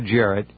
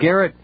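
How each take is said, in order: First: The name begins with a soft G sound. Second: The name begins with a hard G sound. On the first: The speaker calls it right. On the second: The speaker calls it wrong.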